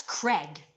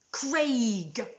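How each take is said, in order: First: Craig said as "Creg"; American Craig pronunciation. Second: Craig with a long AY, like "crayg"; British Craig pronunciation. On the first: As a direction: say Craig with a short E, as in "leg". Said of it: "If it was Craigslist, it would be C R E". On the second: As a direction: say Craig slowly, vowel as in "day". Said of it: "Craig is pronounced Craig". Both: Shown as a demonstration.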